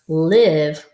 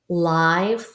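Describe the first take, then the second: First: The vowel is a short ih sound. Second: The vowel sounds like the word eye. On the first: Someone resides somewhere. "we live in a house" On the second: Something is alive. "like there is a live ant"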